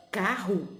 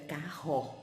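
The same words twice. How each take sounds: First: "carro" ending in a "u" sound, "cárru"; spoken pronunciation. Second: "carro" with full final "o", "cá-rrô"; spelling pronunciation. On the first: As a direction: say "carro" naturally with final "u". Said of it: "A gente es-, fala". ("carro" como se fala, "cárru") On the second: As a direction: say "carro" as written, sounding the last o. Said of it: "mas a gente escreve". ("carro" como se escreve, com "ô" final) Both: Shown as a demonstration.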